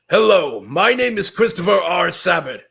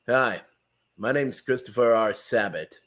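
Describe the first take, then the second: First: It is said in Vegeta's voice. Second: It is said in Zoro's voice.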